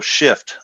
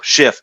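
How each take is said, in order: First: The word is said crisply, with clear final consonants. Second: The word is said loosely, with unclear final consonants. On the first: The intended word is unmistakable. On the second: It could be misheard as a swear word.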